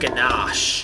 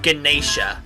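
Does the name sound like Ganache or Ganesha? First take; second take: Ganache; Ganesha. First: The name is said as Ganache. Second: The name is said as Ganesha. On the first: The speaker calls it right. "It's Ganache" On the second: The speaker calls it wrong. "I've been saying it wrong all these times. Not Ganesha"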